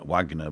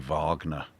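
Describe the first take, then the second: First: The name begins with a W sound. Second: The name begins with a V sound.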